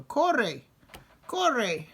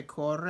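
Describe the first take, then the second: First: "Corre, corre" louder and higher, forceful; firm command. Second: Said in the usual way. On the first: Shown as a demonstration. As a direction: bark "Corre, corre" with a pointed finger. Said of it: "But if you go". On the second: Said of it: "if you say it calmly and quietly".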